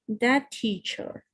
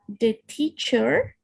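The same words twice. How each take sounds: First: It is said in a British accent. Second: It is said in an American accent. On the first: "or in British" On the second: "or they in American"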